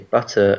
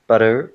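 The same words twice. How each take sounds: First: The middle T is a clear T sound. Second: The middle T sounds like a soft D. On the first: "in British English we say butter" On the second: "an American would say butter"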